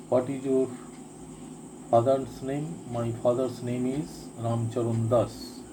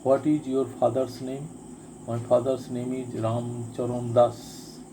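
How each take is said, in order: Both takes have the same delivery.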